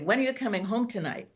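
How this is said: It sounds accusing and reproachful.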